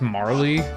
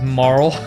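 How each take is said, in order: First: The name is said with two syllables. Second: The name is said with one syllable. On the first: The speaker calls it wrong. "I've heard this pronounced Marley. Fuck that noise" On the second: The speaker calls it right. "that's how I've always pronounced it"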